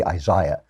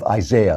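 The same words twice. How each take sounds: First: Isaiah with an EYE in the middle; British pronunciation. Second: Said in the usual way. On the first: Shown as a demonstration. Host shows how the British say it, Isaiah as eye-ZY-uh. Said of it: "as the British say". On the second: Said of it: "or as the British say".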